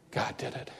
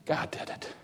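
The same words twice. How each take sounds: First: Fading breathy echo; whispered. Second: Unvoiced hush of an answer; soft reverent whisper. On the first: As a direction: whisper it again, barely there. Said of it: "second take, even softer". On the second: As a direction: breathe it, no voice. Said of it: "repeated answer, whispered". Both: Shown as a demonstration.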